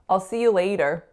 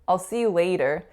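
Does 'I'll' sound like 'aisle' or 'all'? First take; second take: all; all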